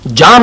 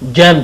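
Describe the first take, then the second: First: The vowel is an open 'aa' sound. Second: The vowel is a front 'ae' sound. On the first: The speaker calls it wrong. "इसको जाम नहीं कहते" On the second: The speaker calls it right. "जैम कहते हैं"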